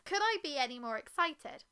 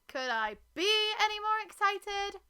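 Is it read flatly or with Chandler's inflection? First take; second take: flatly; inflection. First: It is read plainly, without Chandler's inflection. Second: It is said with Chandler's characteristic inflection.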